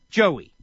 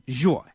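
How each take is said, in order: First: The name is said with two syllables. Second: The name is said with one syllable. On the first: The speaker calls it right. "It's really two syllables" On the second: The speaker calls it wrong. "No. Joy. Makes no sense"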